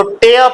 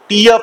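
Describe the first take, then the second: First: टेय with "eh" gliding to "uh"; verb pronunciation. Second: टीय with "ee" gliding to "uh"; noun pronunciation. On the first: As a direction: say टेय like "teh-uh", r silent. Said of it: "अगर verb होगा". (टेय को "टेअ" की तरह बोलकर) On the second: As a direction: say टीय like "tee-uh", r silent. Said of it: "noun होगा तो टीय पढ़ोगे". (टीय को "टीअ" की तरह बोलकर) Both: Shown as a demonstration.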